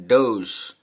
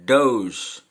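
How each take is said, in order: The two takes are said the same way.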